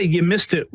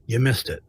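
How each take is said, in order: First: Mock-gleeful taunt; a hint of malice on "You missed it"; gloating. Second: Plain, friendly "You missed it"; collegial. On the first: Shown as a demonstration. Reporter imagining his rival gloating, gleeful. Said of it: "she didn't say "You missed it," with glee or malice". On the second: Retold or imitated. Rival reporter tells him kindly, collegial. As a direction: say it gently as a colleague. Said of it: "she said it with, as a colleague".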